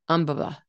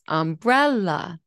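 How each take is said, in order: First: All syllables get equal, even stress. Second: The second syllable is stressed and rises. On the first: "they said this" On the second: "the second syllable rises"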